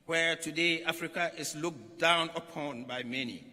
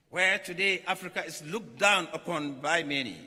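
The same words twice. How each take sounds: The two takes are said the same way.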